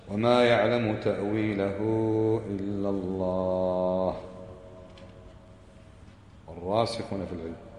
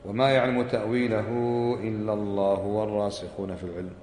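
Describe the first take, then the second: First: There is a pause after "illa Allah". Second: It runs on without a pause after "illa Allah". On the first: Only God knows its interpretation, and a new sentence begins. "كيف يعني الوقف؟ إن هكذا تقرأ" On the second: God and those firm in knowledge both know its interpretation. "الوصل"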